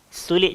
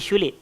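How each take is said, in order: First: The word begins with an 's' sound. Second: The word begins with an 'sh' sound.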